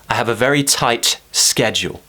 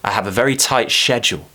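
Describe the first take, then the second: First: Schedule begins with an sk sound. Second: Schedule begins with an sh sound. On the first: "once with ske" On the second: "once with she"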